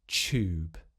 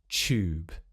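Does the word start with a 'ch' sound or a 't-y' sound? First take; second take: ch; ch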